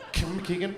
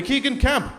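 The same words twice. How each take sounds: First: "Kemp McKeegan" slurred into one muddled word; garbled name. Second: Said in the usual way. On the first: Shown as a demonstration. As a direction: squash "Kemp" into the start of "McKeegan". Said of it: "Are you having a stroke?". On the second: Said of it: "that's much easier to say".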